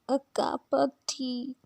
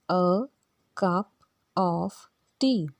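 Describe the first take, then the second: First: It is said quickly, without careful enunciation. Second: It is said slowly, with careful enunciation.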